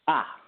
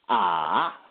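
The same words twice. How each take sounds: First: The pitch is short, sharp and quick. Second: The pitch dips down and comes back up. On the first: "a sharp tone... it's really quick" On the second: "a dip tone"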